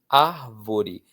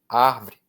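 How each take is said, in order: First: The word is said with all three syllables. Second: The word is said with one syllable dropped. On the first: "a palavra árvore" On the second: "na boca das pessoas menos favorecidas economicamente, vira árvore"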